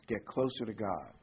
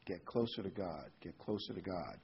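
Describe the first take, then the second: First: Said in the usual way. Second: Soft, dropping repeats of get closer to God; fading softer repeat. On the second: Real, not acted. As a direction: let each repeat sink softer and lower. Repeated exhortation, fading away.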